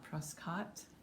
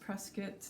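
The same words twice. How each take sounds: First: It is said the way outsiders say it. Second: It is said the way local residents say it. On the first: The speaker is not in the know. The speaker calls it wrong. "not Prescott" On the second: The speaker is in the know. The speaker calls it right. "it's pronounced Prescott, by the locals"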